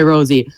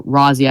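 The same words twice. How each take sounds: First: Rosie said as ROH-zee with a long o; Rosie pronunciation. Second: Rozzie said as ROZ-ee with a short o; Rozzie pronunciation. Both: Real, not acted. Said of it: "I don't know how to pronounce it".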